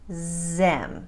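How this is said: The word begins with a z sound.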